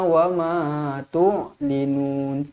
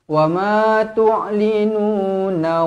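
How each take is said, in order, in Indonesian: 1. Kata itu berhenti pada n dengan vokal panjang. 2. Kata itu berakhir dengan vokal yang bersambung. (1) "kalau kita berhenti nun dia akan jadi mad mad arid lis sukun" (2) "kalau kita sambung"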